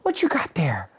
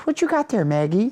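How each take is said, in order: First: High, whispery mom voice; mom peering at dog. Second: High, sing-song imitation of mom; mom talking to dog. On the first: Retold or imitated. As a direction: whisper the question as imitated mom. Mom questions dog more closely. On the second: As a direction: coo a question at the dog, pitched way up.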